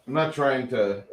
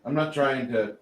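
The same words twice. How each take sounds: The two takes are said the same way.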